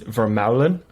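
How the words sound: The name is pronounced the Dutch way. "If you're Dutch, where my grandparents were from, it's Vermeulen"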